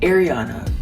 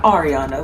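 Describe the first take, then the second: First: The first syllable sounds like the word 'air'. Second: The first syllable does not sound like 'air'. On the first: The speaker calls it right. "Ariana like the air you breathe" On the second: The speaker calls it wrong. "not Ariana like Grande"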